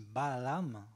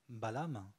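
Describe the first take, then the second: First: The word is said with expressive, drawn-out intonation. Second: The word is said with plain, neutral intonation. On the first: The animal is bigger. "Si on le dit Balaam, ... l'animal est plus gros" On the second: It simply names the jaguar. "balam qui veut dire euh, jaguar"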